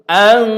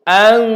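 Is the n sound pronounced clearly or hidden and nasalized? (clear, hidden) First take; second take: clear; clear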